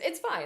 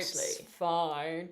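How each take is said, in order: First: It sounds sincere, meaning it really is fine. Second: It sounds passive-aggressive, meaning it's not fine.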